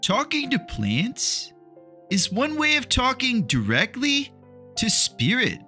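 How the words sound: It is said in a put-on hippie voice.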